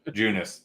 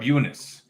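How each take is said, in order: First: The name begins with a clear J sound. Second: The name begins with a vowel sound, no J. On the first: The speaker calls it right. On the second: The speaker calls it wrong.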